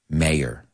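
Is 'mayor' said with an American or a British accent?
American. It is said with an American accent.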